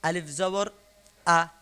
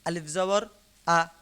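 Both takes have the same delivery.

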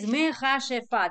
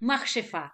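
First: The word has four syllables, with a vowel after m. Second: The word has three syllables, with no vowel after m. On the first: This is the formally correct form. The speaker calls it right. "the correct is mechashefa" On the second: This is the everyday form most people use. The speaker calls it wrong. "The not correct, but everyone does it"

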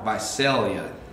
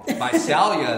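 First: The middle syllable sounds like 'sail'. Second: The middle syllable sounds like 'sal'. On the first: The speaker calls it right. "That's how you say it" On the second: The speaker calls it wrong. "Visalia is wrong"

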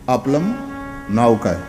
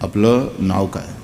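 First: The first word ends with an m sound. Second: The first word ends without an m sound. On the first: The speaker calls it wrong. "કારણ કે લની માથે મીંડું હોય" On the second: The speaker calls it right. "ના એ આપલ એમ બોલવાનું"

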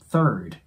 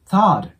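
First: The vowel keeps an r sound all the way. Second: The vowel is said with a wide open mouth. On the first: The speaker calls it right. "ずっとR の音が入ってるイメージですね" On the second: The speaker calls it wrong. "大きい口を開けてthird にならないように注意してください"

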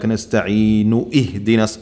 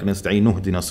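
First: Ihdinas starts fresh with a glottal stop. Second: Ihdinas is joined smoothly onto the previous word. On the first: The speaker calls it wrong. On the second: The speaker calls it right.

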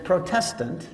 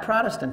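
First: The word protest is clearly heard inside. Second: The word protest is not clearly heard inside. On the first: The speaker calls it right. "it's Protestant. From the word protest" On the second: The speaker calls it wrong. "You say it wrong. It's not Protestant"

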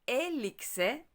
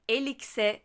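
First: The stressed vowel is drawn out and lengthened. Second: The stressed vowel is short, not drawn out. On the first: The speaker calls it right. "elikse doğru telaffuzdur" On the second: The speaker calls it wrong. "elikse değil de"

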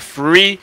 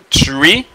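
First: The word begins with an f sound. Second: The word begins with a plain t sound. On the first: "c'est pas free" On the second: "Ça c'est pas tree"

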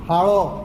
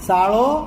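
First: The word begins with a breathy h sound. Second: The word begins with an s sound.

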